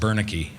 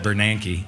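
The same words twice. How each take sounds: First: The name is said in a nonstandard way. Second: The name is said in the standard way. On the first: This is how the speaker used to say it. The speaker calls it wrong. "I called him Bernanke" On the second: This is how the name should be said. The speaker calls it right. "not Bernanke"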